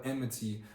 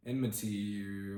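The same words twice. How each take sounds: First: Said in the usual way. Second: Enmity sounded out slowly, syllable by syllable; unsure slow word. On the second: Real, not acted. Stumbling while reading Genesis, unsure how to say enmity. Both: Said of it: "why don't I know what that word is".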